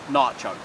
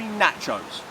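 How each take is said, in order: First: The word is said the American way. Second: The word is said the non-American way. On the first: The speaker calls it wrong. "It is not nachos. Americans, you got it wrong" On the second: The speaker calls it right. "it's actually nachos"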